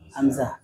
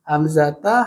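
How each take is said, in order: First: The word ends in an h sound. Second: The word ends in a t and vowel. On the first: The word ends the phrase without a case vowel. "Kalau disukun bacanya ham" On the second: The word carries its case ending. "kalau nggak sukun"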